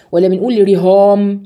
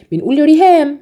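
First: رهام with a heavy, thick ه; wrong heavy ha. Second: رهام with a thin, light ه. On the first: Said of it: "دراهم ولا دراهم". (رهام بهاء مفخمة خطأ) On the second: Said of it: "يبقى الهاء مرققة". (رهام بهاء مرققة) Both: Shown as a demonstration.

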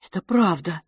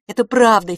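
First: Said in the usual way. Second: Higher and louder, earnest; pleading boy. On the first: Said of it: "narration line". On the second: Acted. Boy assures his twin brother, pleading. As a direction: insist it's true, begging.

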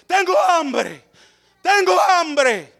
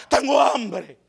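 First: High, very slow wail of tengo hambre; a mock lament, each word dragged; drawn-out hungry cry. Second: Said in the usual way. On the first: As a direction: stretch it out like a starving plea.

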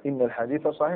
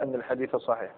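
First: "إن" pronounced inna, starting on i; kasra on إن. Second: "أن" pronounced anna, starting on a; fatha on أن. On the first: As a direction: open "إن" with a short i. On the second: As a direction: open "أن" with a short a. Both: Shown as a demonstration. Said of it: "هل يجب الفتح ولا الكسر".

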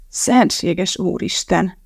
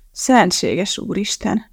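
First: Slow, drawn-out sick groan. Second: Slow, drawn-out groan rising at the end. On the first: Calvin groans to himself holding his belly. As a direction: moan it while clutching the stomach. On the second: Calvin keeps groaning to himself, nauseous. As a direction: moan it again, hand on stomach. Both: A narrator's reading. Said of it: "ismételgette Calvin".

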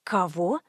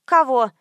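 First: Low, soft, taken-aback question; astonished. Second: Louder, abrupt puzzled question; baffled. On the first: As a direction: ask it under your breath in disbelief. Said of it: "изумилась я". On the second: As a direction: blurt it out, not following. Ignorant friend asks back, baffled. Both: A narrator's reading.

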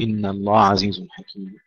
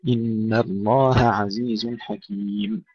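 First: الله عزيز with the ه blurred into the ع; wrong merged H. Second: الله عزيز with the ه kept clear of the ع, slowly; slow separated H and ain. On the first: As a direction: show the error: merge ه into ع. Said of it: "ولا نقول". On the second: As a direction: pull ه and ع apart in الله عزيز. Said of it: "نفصل الهاء عن العين". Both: Shown as a demonstration.

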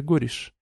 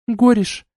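First: Quiet name. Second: Shouted name. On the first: Duchess naming the warrior, soft and ominous. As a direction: let the name fall softly. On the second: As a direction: yell the name Гориш. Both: A narrator's reading.

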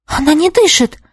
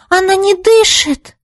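First: High alarmed cry of fear; she's terrified her friend has died; first alarm, higher, stress on не; frightened cry. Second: Much higher, slower cry of panic; the fear builds on the repeat; panicked cry. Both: A narrator's reading. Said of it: "в ужасе уставилась".

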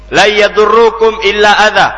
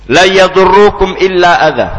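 First: Verse repeated higher and louder, yadurrukum stressed; higher, louder quote. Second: Verse quoted with yadurrukum pressed hard; emphatic quote of verse. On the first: Preacher repeating God's words to believers, raised and emphatic. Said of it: "kata Allah Subhanahu wa taala". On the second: Preacher quoting the verse with heavy stress on yadurrukum. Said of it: "Di sini Allah berfirman". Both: Shown as a demonstration.

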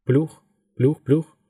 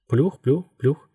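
First: Pace "плюх" evenly, like far-off blades; blade noise imitation. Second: Blade noise imitation. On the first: Helicopter blades heard as sound. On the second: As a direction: echo the far-off beat of blades. Helicopter sound returns on waking. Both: A narrator's reading.

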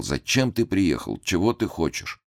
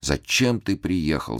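First: A touch of tearful whining on ты; whimpering. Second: Slow, whining lament; old man whimpering зачем, slowly. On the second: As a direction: stress on зачем, drawn-out whimpered зачем. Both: A narrator's reading. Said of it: "как-то захныкал и ... всё повторял".

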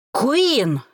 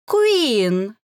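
First: Louder, higher angry growl with a falling end; growled name. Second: Louder, drawn-out taunting sing-song with a rise; sing-song name. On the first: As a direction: growl her name, barely holding back. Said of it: "зарычал Грэди". (рычит имя, с падающим концом) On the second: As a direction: sing her name mockingly. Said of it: "пропела девица". (пропеть имя с издёвкой) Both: Acted.

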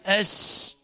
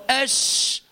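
First: أش with thin, forward sh; faulty shin. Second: أش with full, air-spreading sh; correct shin. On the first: Teacher repeats the wrong sound as warning, misplaced sh. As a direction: keep the sh of أش narrow and misplaced. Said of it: "وليس". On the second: Teacher repeats the right sound for students, clear sh. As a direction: say أش from mid-tongue with spread air. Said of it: "فتقول أش وليس". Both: Shown as a demonstration.

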